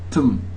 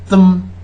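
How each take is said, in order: First: It carries the tone pattern of 'kiss'. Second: It carries the tone pattern of 'pound'. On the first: It means to arrange or to kiss. "to arrange or kiss" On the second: It means to pound. "to pound"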